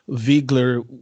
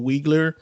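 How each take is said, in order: First: The name is said with a German pronunciation. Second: The name is said with an anglicized pronunciation. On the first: The speaker calls it right. "with its German uh, pronunciation" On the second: The speaker calls it wrong. "as opposed to"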